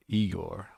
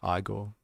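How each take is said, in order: First: Igor with a long "ee" at the start; first syllable of Igor rhymes with "see"; EE-gore pronunciation. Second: Igor with a long "eye" at the start; first syllable of Igor rhymes with "my"; EYE-gore pronunciation. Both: Shown as a demonstration. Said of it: "our pronunciation of these types of things".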